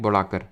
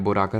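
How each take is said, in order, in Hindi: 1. पहला स्वर 'a' जैसा सुनाई देता है। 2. पहला स्वर 'o' जैसा सुनाई देता है।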